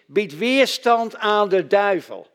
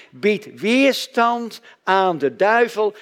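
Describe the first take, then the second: First: Each word spaced out, weight on weerstand; slow, deliberate, raised voice, leaning hard on "weerstand"; slow emphatic command. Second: Drawn out, every word weighted, "weerstand" hit hardest; even slower, with a changed preaching voice and "weerstand" leaned on; very slow proclamation. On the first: Preacher drives home his second point, slowly stressing "weerstand". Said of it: "Het tweede is". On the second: Preacher answers his own question with the Bible verse, slow and solemn. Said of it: "wat zegt de Bijbel hier?". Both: Shown as a demonstration.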